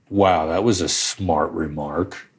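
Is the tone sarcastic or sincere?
sarcastic. It is said sarcastically, as an insult.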